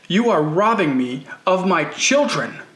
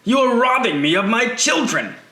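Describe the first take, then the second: First: It is said in the reader's plain voice. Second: It is said in an accented character voice.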